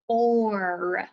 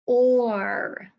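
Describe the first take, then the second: First: Said in the usual way. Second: "Or" said louder and stretched, as a sound chunk; emphasised sound. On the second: Shown as a demonstration. Teacher stressing the vowel sound for children, loud "Or". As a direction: lean into "Or" to make it stand out. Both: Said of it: "Now we have".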